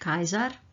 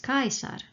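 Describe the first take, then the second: First: The middle consonant is a buzzing Z sound. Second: The middle consonant is a hissing S sound. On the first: The speaker calls it wrong. "not Kaiser" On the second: The speaker calls it right. "the letter S sounds only as an S and never as Z. So, it is Kaisar"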